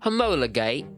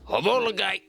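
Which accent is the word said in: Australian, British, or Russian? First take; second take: British; Australian. First: The word is said in a British accent. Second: The word is said in an Australian accent. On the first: "now say it with a British accent" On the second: "now say it in an Australian accent, but you're off to war"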